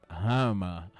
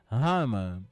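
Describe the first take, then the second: First: The words merge into one short form. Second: The words merge into one short form.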